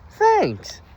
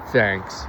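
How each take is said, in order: First: It is said in a girly, ladylike voice. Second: It is said in a dejected, shy voice.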